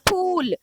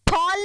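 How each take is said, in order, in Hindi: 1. स्वर लंबे 'oo' जैसा बोला जाता है। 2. स्वर छोटे 'o' जैसा बोला जाता है। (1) "वाव की आवाज ऊ की तरह निकल रही है" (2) "यहाँ पे हम फॉल नहीं पढ़ते हैं"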